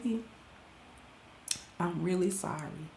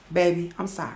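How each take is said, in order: First: Much lower, much softer retake of sorry; practice apology. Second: Much lower, much softer rehearsed apology; practice apology. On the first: Rehearsing a second apology to husband, low and hushed. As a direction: try sorry again under your breath. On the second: Rehearsing an apology to husband in the mirror, hushed and low. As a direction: murmur a trial sorry to the mirror. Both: Shown as a demonstration. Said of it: "practicing how I'ma say sorry".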